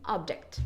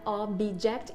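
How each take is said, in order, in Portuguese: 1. O b vai direto para o som de j. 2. Um i extra é inserido depois do b. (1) "e sim object" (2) "que não é object"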